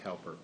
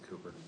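First: The first syllable sounds like 'cow'. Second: The first syllable sounds like 'coo'. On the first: The speaker calls it wrong. "Not pronounced Cowper" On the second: The speaker calls it right. "pronounced Cooper"

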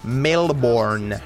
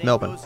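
First: The word is pronounced closely following its spelling. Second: The word is pronounced differently from its spelling. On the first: An outsider is saying the name. The speaker calls it wrong. "It is funny when people go" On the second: A local is saying the name. The speaker calls it right. "I know it's not spelt that way, but that's the way that it's said"

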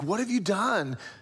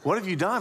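First: The question sounds gentle and inviting. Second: The question sounds bewildered and at a loss. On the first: The asker invites the listener to reflect and return. The speaker calls it right. "He's like, in order to give Cain an opportunity to soften and pause" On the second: The asker does not know what to do. The speaker calls it wrong. "Not like, I'm stumped. I don't know what to do here"

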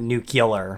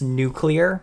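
First: The word is said as nu-cu-lar. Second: The word is said as nu-clear. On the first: The speaker calls it wrong. "not nuclear" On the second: The speaker calls it right. "And that's nuclear"

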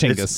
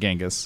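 First: The name is said as Chinggis. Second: The name is said as Genghis. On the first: The speaker calls it right. "it's Chinggis" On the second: The speaker calls it wrong. "it's not Genghis"

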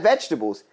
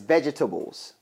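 First: The word is said with a syllable dropped. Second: Every syllable of the word is pronounced fully. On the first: This is the usual everyday way of saying it. "Not vegetables" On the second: This imitates someone who pronounces every letter. "He says vegetables"

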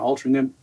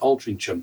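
First: The last syllable has no 'ch' sound. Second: The last syllable begins with a 'ch' sound.

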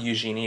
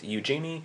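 First: The name is said with a French pronunciation. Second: The name is said with an English pronunciation. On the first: The speaker calls it wrong. "If you pronounce it French, that's not correct" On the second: The speaker calls it right. "It's Eugenie"

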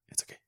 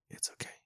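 First: The phrase is said quickly in a feminine voice. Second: The phrase is said slowly and drawn out. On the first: The speaker calls it right. "It was like a quick" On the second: The speaker calls it wrong. "not even like that slow"

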